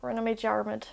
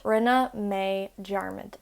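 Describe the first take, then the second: First: Said in the usual way. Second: Rinne mé dearmid drawn out slowly; slow it down so learners catch it; slow teaching repeat. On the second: Shown as a demonstration. Teacher repeats Rinne mé dearmid slowly for learners.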